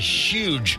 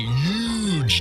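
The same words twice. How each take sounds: First: The word starts with a clear 'h' sound. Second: The word starts without any 'h' sound.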